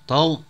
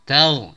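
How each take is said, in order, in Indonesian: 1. Baik huruf t maupun gh terdengar tebal. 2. Huruf t terdengar tipis dan gh terdengar tebal. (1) "bukan taknya ditebalkan sehingga berbunyi" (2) "Tapi ghainnya ditebalkan"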